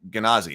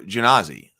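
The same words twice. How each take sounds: First: It begins with a hard G sound. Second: It begins with a soft J-like G sound. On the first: "I think we always just said" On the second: "Grimhild says soft G on Genazi"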